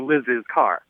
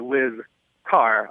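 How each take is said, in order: First: Liz is followed by an added possessive syllable. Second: Liz is said with no added possessive syllable. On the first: "she thinks I should pronounce this" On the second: "I would say when referring to her job"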